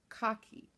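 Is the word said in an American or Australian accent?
Australian. It is said in an Australian accent.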